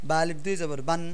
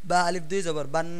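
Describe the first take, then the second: No difference in how they are said.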